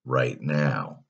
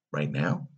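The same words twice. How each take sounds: First: Said in the usual way. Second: "Right now" softer, rising at the end; "Right now" lifting into a question; questioning echo. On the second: A narrator's reading. Boy echoes the offer.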